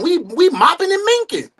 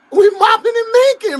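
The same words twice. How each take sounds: First: Said in the usual way. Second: Mopping and minking, thrown out higher and louder; gleeful loud repeat; excited shout. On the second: Real, not acted. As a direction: hype it up, shout it.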